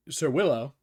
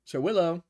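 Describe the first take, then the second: First: Raised voice calling a name through the door; first knock, calling politely but loud. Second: Calls the name once more, pitched higher and more insistent; second call when nobody answers yet; calling again, higher. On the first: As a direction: call out to someone inside. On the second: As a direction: try again, a bit more urgent. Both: Acted. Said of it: "Knocks on the door and goes".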